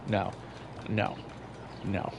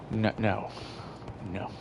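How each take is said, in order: Both takes have the same delivery.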